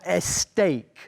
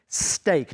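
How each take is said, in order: First: An extra vowel sound comes before the s. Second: The word starts directly with the s sound. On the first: The speaker calls it wrong. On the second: The speaker calls it right. "be very careful with the pronunciation"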